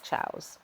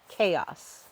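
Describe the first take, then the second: First: The word begins with a ch sound. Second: The word begins with a k sound. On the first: The speaker calls it wrong. "not chows" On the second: The speaker calls it right. "the correct pronunciation, which is chaos"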